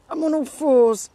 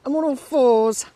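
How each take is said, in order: First: Loud joking exclaim. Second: Loud joking repeat. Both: Real, not acted.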